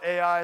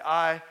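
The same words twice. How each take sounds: First: Ai said as two letters, A-I. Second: Ai said as one syllable, "eye". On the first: Preacher giving one local name for the town, Ai pronounced A-I. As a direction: say Ai as "ay-eye". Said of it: "some people call it Ai". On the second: Preacher giving the other way to say the town, Ai as one syllable. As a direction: say Ai just like "eye". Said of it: "some people say Ai". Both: Shown as a demonstration.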